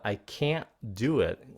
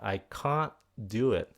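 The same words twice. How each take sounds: First: It is said in an American accent. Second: It is said in a British accent.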